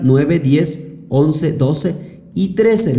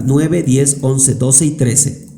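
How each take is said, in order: First: Cuenta "Nueve, diez, once, doce y trece" despacio, número por número; conteo lento de verificación. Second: Said in the usual way. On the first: Shown as a demonstration. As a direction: verificando cada fila en voz alta, sin prisa. (al revisar los resultados, cuenta lento para comprobar) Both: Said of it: "Vamos a verificar".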